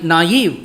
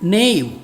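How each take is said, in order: First: It is said as two syllables, nah-eev. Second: It is said as one syllable, rhyming with cave. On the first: The speaker calls it right. "அதை நாயிவ் என்று படிக்க வேண்டுமாம்" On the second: The speaker calls it wrong. "நேவ் என்றுதான் நான் முதலில் படித்தேன்"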